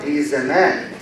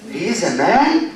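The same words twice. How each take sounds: First: Low, settled "man", no questioning climb; statement intonation. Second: "man" climbing sharply into a question; questioning intonation. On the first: Teacher contrasting intonation patterns, low statement on "man". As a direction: state "he is a man" in a lowered pitch. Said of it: "I can say the sentence in three different patterns". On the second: Teacher contrasting intonation patterns, rising question on "man". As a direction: ask it in surprise-question tune, rising on "man". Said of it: "three different patterns of intonation". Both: Shown as a demonstration.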